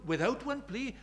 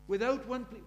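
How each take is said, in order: First: One hit hard in Without one plea; stress on one. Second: Without punched, the rest falling away; stress on without. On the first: Preacher quoting the hymn, stress on one. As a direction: lean on the word one. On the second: Preacher quoting the hymn, stress on Without. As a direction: lean on Without. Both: Shown as a demonstration.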